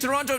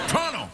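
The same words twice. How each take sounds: First: The word is said with its t sounds. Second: The word is said without its t sounds. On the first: "Do you mean Toronto?" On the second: "No, I don't have time for teas"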